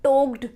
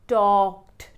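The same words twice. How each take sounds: First: "talked" as toked, with oh; wrong TALKED. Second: "talked" as tawkt, open aw; slow, open aw in "talked"; correct TALKED. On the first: Teacher showing the mistake, "talked" as toked. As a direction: round long o in "talked". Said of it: "टॉक में आप". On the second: Teacher correcting learners, "talked" as tawkt. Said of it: "उसको एडब्ल्यू बना दो". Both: Shown as a demonstration.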